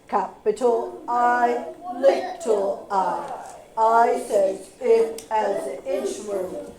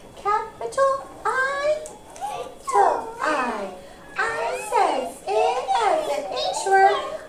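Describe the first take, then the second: First: It is said in a football voice. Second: It is said in a tiny mouse voice.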